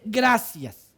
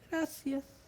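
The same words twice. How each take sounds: First: It is said loudly and clearly. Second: It is said quietly and timidly.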